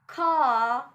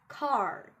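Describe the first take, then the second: First: The R after the vowel is silent. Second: The R after the vowel is sounded. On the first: The speaker calls it right. "we have R after vowel. We won't pronounce it" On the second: The speaker calls it wrong. "not car"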